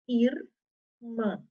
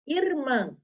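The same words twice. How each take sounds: First: "Irmã" split into ir, pause, mã; "Irmã" broken after the R of ir; syllable by syllable. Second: Said in the usual way. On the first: Shown as a demonstration. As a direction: sound out "Irmã" in two detached syllables. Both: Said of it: "Quem é que tá no final da sílaba".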